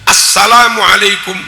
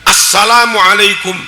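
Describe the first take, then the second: The two takes are said the same way.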